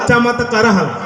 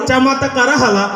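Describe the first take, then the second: No difference in how they are said.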